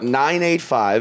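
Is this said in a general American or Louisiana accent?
general American. It is said in a general American accent. "is how you say it as a human, but like, or just a person outside Louisiana"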